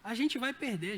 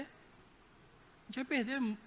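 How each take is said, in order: First: Said in the usual way. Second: "A gente vai perder" drawn out slowly, weight on "perder"; slow emphasis. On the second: Shown as a demonstration.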